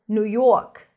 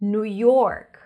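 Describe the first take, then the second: First: It is said in a local New York accent. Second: It is said in a general American accent.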